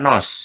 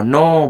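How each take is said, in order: First: The word ends with an audible s sound. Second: The word ends in a vowel with no s. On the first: The speaker calls it wrong. "Nos itu buat mobil" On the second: The speaker calls it right. "no bukan nos"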